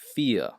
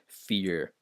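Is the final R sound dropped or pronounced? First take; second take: dropped; pronounced. First: The final R sound is dropped. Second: The final R sound is pronounced. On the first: This is the standard British way of saying it. "It's fear and fair and poor. They don't pronounce the R in uh, syllable final position" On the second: This is the American way of saying it. "they don't say fear uh, in in the standard accent of English, uh, British English"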